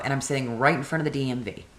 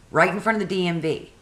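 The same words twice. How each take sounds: First: Said in the usual way. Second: Higher and faster, leaning on front; emphatic repeat. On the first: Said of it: "repeated phrase". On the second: Retold or imitated. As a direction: repeat it to drive the point. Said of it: "repeated for emphasis".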